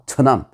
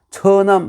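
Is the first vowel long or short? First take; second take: short; long. First: The first vowel is short. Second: The first vowel is long. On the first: The speaker calls it right. "첫 때는 그 좀 짧게 발음해요" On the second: The speaker calls it wrong. "처남 하지 않죠"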